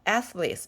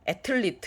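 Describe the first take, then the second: First: The th is said as a soft th. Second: The th is said as a hard t. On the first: The speaker calls it right. "athlete 이렇게 교정을 시켜줘야 되겠죠" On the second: The speaker calls it wrong. "이렇게 틀리게 발음하면"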